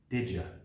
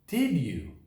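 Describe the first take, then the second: First: The second word is shortened and weak. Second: Both words are said fully and separately.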